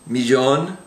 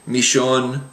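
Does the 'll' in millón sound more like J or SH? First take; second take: J; SH. First: The middle consonant sounds somewhat like English J. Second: The middle consonant sounds like English SH. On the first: "a little bit of a J kind of a sound" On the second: "almost pronounced like an S H sound"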